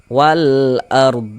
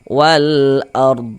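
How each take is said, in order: First: The word ends on a bare consonant. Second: The same.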